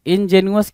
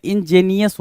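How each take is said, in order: First: इंजेनुअस as "in-je-nu-us"; misspelling read out. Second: इंजेनियस as "in-JEE-ni-us"; correct pronunciation. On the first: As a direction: say इंजेनुअस ending in "nu-us". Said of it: "इंजेनुअस कुछ नहीं होता है". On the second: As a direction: end इंजेनियस in "ni-yus". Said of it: "इंजेनियस होता है". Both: Shown as a demonstration.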